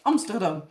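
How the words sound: The city name has a Dutch pronunciation. "the Dutch Amsterdam"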